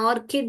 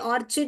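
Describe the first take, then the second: First: The middle consonant is a k sound. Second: The middle consonant is a ch sound. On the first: The speaker calls it right. "ऑर्किड है" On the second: The speaker calls it wrong. "ये ऑर्चिड नहीं है बेटा"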